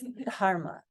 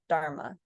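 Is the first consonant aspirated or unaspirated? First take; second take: aspirated; unaspirated. First: The first d is said with a puff of air. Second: The first d is said without a puff of air. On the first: The speaker calls it right. "There's a little, there's that H there" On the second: The speaker calls it wrong. "it's not dharma"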